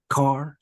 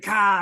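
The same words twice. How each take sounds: First: It is said with a Southern twang. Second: It is said in a Boston accent. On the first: The speaker calls it right. "they just say with that twang down here" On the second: The speaker calls it wrong. "somebody from Massachusetts"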